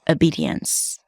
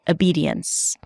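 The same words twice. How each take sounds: First: It begins with a weak 'uh' vowel. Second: The same.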